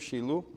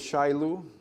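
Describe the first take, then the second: First: It is said with a native Hebrew pronunciation. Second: It is said with a familiar English pronunciation. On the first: "Shilu is how you say it in Hebrew" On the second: "We know it as Shilu"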